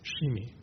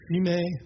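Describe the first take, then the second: First: The name is said in the Hebrew way. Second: The name is said in an anglicized way. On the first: "the authentic Hebrew is Shimei" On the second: "I've heard Shimei"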